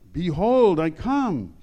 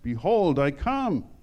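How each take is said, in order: First: It is said louder, with more emphasis. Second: It is said at a normal, moderate volume.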